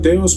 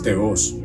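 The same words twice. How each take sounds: First: The stress is on the first syllable. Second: The stress is on the second syllable. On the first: "Muchas veces se pronuncia teos" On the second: "con una rayita ahí encima de la O, que viene siendo la tilde, y es teos"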